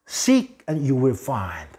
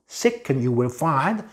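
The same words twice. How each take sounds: First: It is said at a slower pace. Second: It is said at a fast pace.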